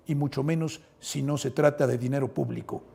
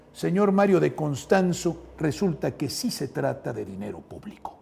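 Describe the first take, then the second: First: Said in the usual way. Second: "sí" pressed firmly against the critic's "si no"; stress on sí. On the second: Real, not acted. Rebutting a critic's tweet, pressing hard on "sí". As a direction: lean on "sí" to contradict.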